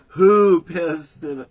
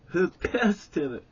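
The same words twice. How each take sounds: First: Much higher, very loud, slow shouted question; furious yell. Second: Higher and louder accusing question; angry demand. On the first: Stan screaming at Jerry over the bottle, full yell. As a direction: roar it at Jerry. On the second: Stan confronting the boys, loud and angry. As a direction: snap the question at the group. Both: Retold or imitated.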